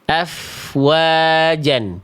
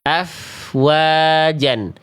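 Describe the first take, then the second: Both takes have the same delivery.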